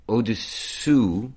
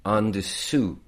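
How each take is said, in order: First: "Au-dessous" slow, high and loud, rising; over-articulate "Au-dessous"; careful demo. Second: "en dessous" higher and louder, falling; over-articulate "en dessous"; careful demo. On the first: Tutor demonstrating "Au-dessous" to her partner. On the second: Tutor demonstrating "en dessous" to her partner. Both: Shown as a demonstration.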